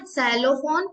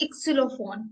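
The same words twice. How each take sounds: First: Xylophone said the English way, starting with Z; English pronunciation. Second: इक्सिलोफोन begins with a clear iks sound; German pronunciation. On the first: Teacher contrasts for students English xylophone, said with a Z. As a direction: say xylophone as an English speaker would. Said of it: "but इक्सिलोफोन". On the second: Teacher gives students German Xylophon: इक्सिलोफोन, starting iks. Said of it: "तो इक्स करके आवाज आएगी". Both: Shown as a demonstration.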